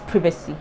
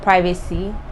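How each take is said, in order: First: It is said in a British English pronunciation. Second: It is said in a non-British pronunciation. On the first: The speaker calls it right. "according to British English, which I do speak, it's privacy" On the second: The speaker calls it wrong. "it's not privacy"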